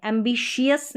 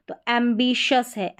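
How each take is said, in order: First: "एम्बिशियस" with the long "शियस" ending; rejected variant. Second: "एम्बिशस" with a short "शस" ending; correct short ending. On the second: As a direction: say "एम्बिशस", not -शियस. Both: Shown as a demonstration. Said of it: "एम्बिशियस नहीं".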